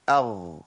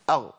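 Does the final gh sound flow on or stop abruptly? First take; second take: flows; stops. First: The gh sound flows on continuously. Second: The gh sound is cut off abruptly. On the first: The speaker calls it right. "ده زمن جريان الصوت" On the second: The speaker calls it wrong. "ان انا اعمل فيها شدة"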